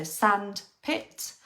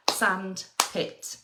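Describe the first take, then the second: First: "sandpit" stretched very slowly, jaw dropping on each syllable; very slow demo. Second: "sandpit" slow, sand and pit beat apart; clapped syllables. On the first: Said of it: "hand under your chin and say the word". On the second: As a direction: clap out "sandpit" in two beats. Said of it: "they might clap". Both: Shown as a demonstration.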